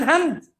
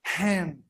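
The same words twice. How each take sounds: First: "hand" with an Indonesian ah, like hahnd; faulty "hand", flat Indonesian A; mispronounced hand. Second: "Hand" with an open A as in cat, falling softly; soft, low model "Hand", English vowel. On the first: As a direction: say "hand" as a learner reads it, with ah. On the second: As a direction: say "Hand" as haend. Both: Shown as a demonstration. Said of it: "bukan hand".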